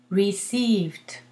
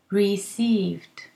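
First: The word ends with a t sound. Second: The word ends with a t sound.

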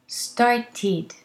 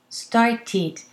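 The two takes are said the same way.

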